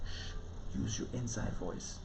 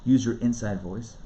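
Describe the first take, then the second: First: Very soft, shushing teacher imitation; hushed inside voice. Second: Said in the usual way. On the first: Teacher telling kids to use an inside voice, hushed. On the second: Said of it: "where teachers tell kids".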